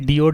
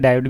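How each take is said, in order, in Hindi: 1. पहला अक्षर 'dee' जैसा सुनाई देता है। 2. पहला अक्षर 'die' जैसा सुनाई देता है। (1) "डियोड ना कह के" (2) "डायोड कहना थोड़ा सा ज़्यादा अच्छा रहेगा"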